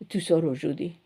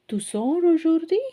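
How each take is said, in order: First: The voice falls at the end. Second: The voice rises at the end. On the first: It states that the person is going out today. "You are going out today" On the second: It asks whether the person is going out today. "you can change your intonation to make it as a question"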